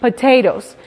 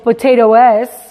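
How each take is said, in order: First: The E before the final S is silent. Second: The E before the final S is sounded. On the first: The speaker calls it right. "decimos potatoes" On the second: The speaker calls it wrong. "No decimos potatoes"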